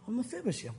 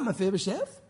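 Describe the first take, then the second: First: The name is said in a heartbroken tone. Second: The name is said in an angry tone. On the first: The speaker is hurt and wonders what went wrong. "like the heart of the Lord" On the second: The speaker is annoyed at being let down. "Maybe it was mad"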